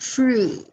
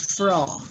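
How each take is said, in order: First: The first vowel sounds like 'oo'. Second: The first vowel sounds like 'oh'. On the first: The speaker calls it right. "You pronounce that Fru" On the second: The speaker calls it wrong. "not Fro. It's not an O"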